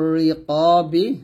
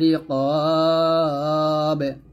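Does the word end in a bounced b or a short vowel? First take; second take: short vowel; bounced b. First: It ends with a short i vowel after b. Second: The long a is held; b ends in a bounce. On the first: The reading continues without stopping. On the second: The reader stops at this word.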